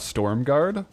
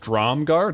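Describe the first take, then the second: First: The name begins with the sound 'storm'. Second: The name begins with the sound 'strom'. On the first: The speaker calls it wrong. "not Stormguard" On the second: The speaker calls it right. "It's Stromguard"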